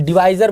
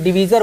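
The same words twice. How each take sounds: First: डिवाइजर said with a long ai, di-VAI-zar; divisor pronunciation. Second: डिवीज़र said with a long ee, di-VEE-zar; alternate divisor pronunciation. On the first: Teacher tells students one way to say divisor: डिवाइजर with long ai. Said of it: "डिवीज़र बोलते हैं". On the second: Teacher gives the other spelling-style reading: डिवीज़र with long ee. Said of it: "यानी डिवाइजर बोलते हैं". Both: Shown as a demonstration.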